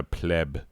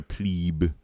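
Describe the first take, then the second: First: "pleb" rhyming with web; PLEB with short e. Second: "plebe" rhyming with grebe; PLEBE with long ee. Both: Shown as a demonstration. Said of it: "I've heard both".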